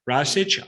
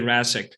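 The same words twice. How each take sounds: First: The surname is pronounced in its original form. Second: The surname is pronounced in an Americanized form. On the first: "I don't say Rasic" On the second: "I say Rasic"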